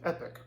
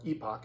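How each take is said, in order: First: The second syllable sounds like 'pick'. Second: The second syllable sounds like 'pock'. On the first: "I'm pretty sure it's pronounced Epic" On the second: "as some people call it"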